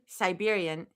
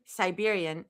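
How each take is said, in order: First: The word is said in its full form. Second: The word is said in its full form.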